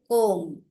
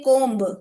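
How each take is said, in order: First: The final B sound is left silent. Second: The final B sound is pronounced. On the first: The speaker calls it right. "we say comb" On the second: The speaker calls it wrong. "We don't say comb"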